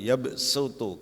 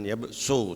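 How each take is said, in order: First: The s is plain, with lips not pushed out. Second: The s is emphatic, with rounded, pushed-out lips. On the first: The speaker calls it right. "tapi ya sutu karena sin" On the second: The speaker calls it wrong. "Jangan ya su"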